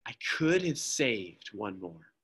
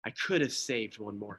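First: Slow, soft, grieving; quiet weeping regret; tearful lament. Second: Soft, broken repetition; quiet weeping regret, softer still; tearful lament. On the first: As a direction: choke it out through tears. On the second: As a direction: let it fall away in grief. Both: Acted. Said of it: "through tears in his eyes".

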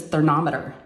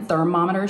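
First: "thermometer" said ther-NOM-eter; N instead of M. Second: "thermometer" said ther-MOM-eter; pronounced with M. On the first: Retold or imitated. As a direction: swap the middle M of "thermometer" for N. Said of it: "she says thermometer". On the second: Shown as a demonstration. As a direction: keep the M in "thermometer". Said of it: "with an M".

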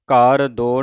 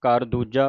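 First: ਘਰ ਦੋ read as the plain number do; wrong reading demo. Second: ਘਰ ਦੂਜਾ read as the ordinal dooja; correct reading demo. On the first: Teacher warning the congregation, ਘਰ ਦੋ as the wrong reading. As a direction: say ਘਰ ਦੋ with the cardinal do. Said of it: "ਘਰ ਦੋ ਨਹੀਂ ਕਹਿ ਦੇਣਾ". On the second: Teacher correcting the reading, ਘਰ ਦੂਜਾ spoken in full. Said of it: "ਘਰ ਦੂਜਾ ਉਚਾਰਨ ਕਰਨਾ ਹੈ". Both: Shown as a demonstration.

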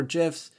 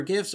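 First: "gifs" with a soft g, like "jifs"; "gifs" opening like "jiffy"; soft-g pronunciation. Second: "gifs" with a hard g, as in "gift"; "gifs" opening like "give"; hard-g pronunciation. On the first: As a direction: say "gifs" starting with a j sound. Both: Shown as a demonstration. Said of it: "gifs or gifs".

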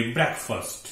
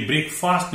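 First: ब्रेकफास्ट as BREK-fust; correct pronunciation. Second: ब्रेकफास्ट as brake-FAAST; wrong pronunciation. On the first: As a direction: say ब्रेकफास्ट with both vowels short. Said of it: "इसे बोलेंगे ब्रेकफास्ट". (सही उच्चारण, ब्रेकफ़स्ट) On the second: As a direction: say ब्रेकफास्ट with long "ay" and "aa". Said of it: "ये ब्रेकफास्ट नहीं है". (गलत उच्चारण, ब्रेक-फ़ास्ट) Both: Shown as a demonstration.

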